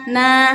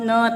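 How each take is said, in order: First: The vowel is open with the jaw dropped. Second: The vowel is held back with the jaw closed. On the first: The speaker calls it right. "dibuka rahang mulutnya" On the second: The speaker calls it wrong. "jangan ne ne tertahan"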